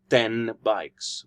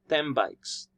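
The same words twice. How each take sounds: First: The first word ends with an n sound. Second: The first word ends with an m sound. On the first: The speaker calls it wrong. "not ten bikes, which would sound somewhat weird" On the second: The speaker calls it right. "in the normal colloquial speech, in the normal discourse, when we speak English, we might say ten bikes"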